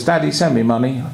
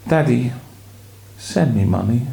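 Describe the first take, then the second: First: Mildly demanding, brisk request; aggressive demand. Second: Plaintive pleading. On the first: Acted. Son's letter to his father, mildly demanding. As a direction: ask for money matter-of-factly, as a demand. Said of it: "you've read it in the wrong tune". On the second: Shown as a demonstration. Wife shows how to read the letter, plaintive and pleading. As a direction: plead gently, pausing after Daddy. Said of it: "in a more pleading voice".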